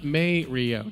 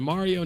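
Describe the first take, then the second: First: The first syllable sounds like 'may'. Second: The first syllable sounds like 'ma'. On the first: The speaker calls it wrong. "not May Rio" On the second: The speaker calls it right. "Said it's Mario"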